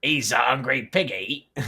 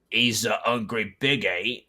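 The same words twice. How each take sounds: First: Put-on accidental British accent. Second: Put-on pirate accent slipping. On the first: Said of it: "It became fucking British". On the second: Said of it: "I lost the pirate accent".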